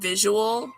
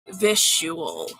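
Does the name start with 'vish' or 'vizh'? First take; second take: vizh; vish. First: The first syllable is 'vizh', as in visualize. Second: The first syllable is 'vish'. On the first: The speaker calls it wrong. "like as in like visual eyes" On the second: The speaker calls it right. "but it's visual, vish"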